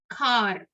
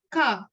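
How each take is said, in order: First: "car" with the final R sounded; American pronounced R. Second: "car" with the R left silent; British R-less pronunciation. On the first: Teacher showing learners American English, "car" with the R pronounced. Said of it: "they will pronounce the R". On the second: Teacher showing learners British English, "car" with a silent R. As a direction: say "car" without sounding the final R. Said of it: "the R not pronounced". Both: Shown as a demonstration.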